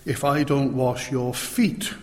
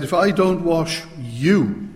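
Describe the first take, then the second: First: "feet" set apart at the end with a rise; stress on FEET. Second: "you" held back, then stressed with a fall; slow down and land firmly on "you"; weighty, drawn-out "you" to close the phrase. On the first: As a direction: lean on the last word, "feet". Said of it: "Notice that Jesus doesn't say". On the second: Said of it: "He said". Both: Shown as a demonstration.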